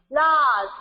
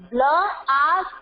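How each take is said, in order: First: Said in the usual way. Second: "Blast" sounded out bla-as-t; teacher's segmented "Blast"; split into three parts. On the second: Shown as a demonstration. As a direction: break "Blast" into three beats, t on its own. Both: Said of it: "Three syllable".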